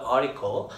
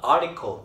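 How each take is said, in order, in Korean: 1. t 소리는 생략돼요. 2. t 소리가 분명하게 발음돼요. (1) "T 없어요" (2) "발음이 이렇게 article이 아닙니다"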